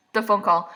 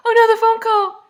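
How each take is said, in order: First: Said in the usual way. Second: Loud, very high comic wail; mock horror. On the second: Reacting to the remembered phone call, high mock horror. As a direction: escalate into shrieky fake alarm. Mock dismay grows louder.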